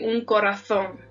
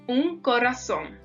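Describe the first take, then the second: First: The z is said as a th sound. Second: The z is said as an s sound.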